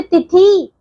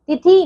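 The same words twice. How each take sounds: First: तिथि ending in a long ee; wrong long vowel. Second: तिथि with a short final i; short final vowel. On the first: Teacher showing the misspelling, तिथि with long final ee. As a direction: stretch the last vowel of तिथि to thee. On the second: Teacher correcting pupils, तिथि with short final i. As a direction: keep the end of तिथि brief. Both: Shown as a demonstration. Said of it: "तिथि नहीं तिथि".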